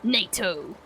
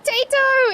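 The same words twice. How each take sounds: First: "Nato" said lower and softer, mocking people who drop the middle syllable; mocking misreading. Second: "Tato" shouted much higher and louder, first syllable punched; shouted correction. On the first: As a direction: sneer out "Nato" as a lazy misreading, low and quiet. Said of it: "Let's cut out the middle syllable". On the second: Shown as a demonstration. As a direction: yell "Tato" as the easy nickname, high and loud. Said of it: "Everyone calls me Tato".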